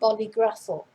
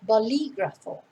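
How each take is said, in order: First: The stress is on another syllable. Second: The stress is on the second syllable. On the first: The speaker calls it wrong. "not bolígrafo" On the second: The speaker calls it right. "notice where the accent is on the I in the middle"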